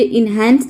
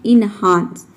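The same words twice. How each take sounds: First: इनहैंस said with a flat "ai" vowel, like "hand"; wrong pronunciation. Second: इनहांस said with an open "aa" vowel, in-HAANS; correct pronunciation. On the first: Teacher showing students the mistake: इनहैंस with the "hand" vowel. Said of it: "कई सारे student इसको pronounce करते हैं इनहैंस". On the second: Teacher correcting students: इनहांस with the open "aa" vowel. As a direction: say इनहांस clearly with the long open "aa". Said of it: "ये इनहैंस नहीं होता है, ये होता है इनहांस". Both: Shown as a demonstration.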